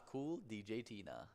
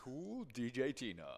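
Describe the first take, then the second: First: Smooth radio DJ sign-off; radio host voice. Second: Playful DJ shout-out; radio host voice. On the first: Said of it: "You said it like a, like a radio station host". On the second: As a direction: say it like a radio jock on air. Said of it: "like a radio station host". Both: Acted.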